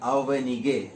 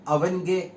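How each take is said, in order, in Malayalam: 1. നടുവിലുള്ള സ്വരം വ്യക്തമായി ഉച്ചരിക്കുന്നുണ്ട്. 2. വേഗത്തിലുള്ള സംസാരത്തിൽ നടുവിലുള്ള സ്വരം ഒഴിവാക്കപ്പെടുന്നു.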